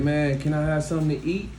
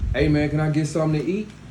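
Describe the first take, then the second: First: It is said nicely and quietly. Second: It is said loudly and forcefully.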